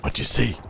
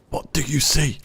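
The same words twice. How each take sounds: First: Said in the usual way. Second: Much higher, singsong voice; high playful question. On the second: Acted. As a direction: ask it again in a lilting high voice. Playful repeated question to teammate.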